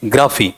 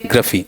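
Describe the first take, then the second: First: ग्राफी with a long open aa; wrong long vowel. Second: ग्रफी with a short schwa and a short फी; short vowel. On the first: Teacher shows students the common wrong form, long aa. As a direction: demo the wrong ग्राफी, stretching the aa. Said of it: "और होना क्या चाहिए?". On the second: Teacher gives students the correct form, short vowels. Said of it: "फी भी बड़ा या छोटा? छोटे वाला". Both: Shown as a demonstration.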